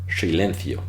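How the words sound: The s is a hushing, sh-like retroflex sound. "rather silencio"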